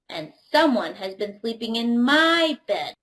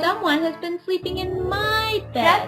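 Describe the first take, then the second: First: It is said in a medium-sized voice. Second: It is squeaked in a tiny little voice.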